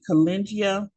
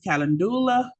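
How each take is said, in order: First: The middle has a soft j sound. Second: The middle has a clear d sound. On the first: "many people also pronounce it calengia" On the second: "Many people pronounce this calendula"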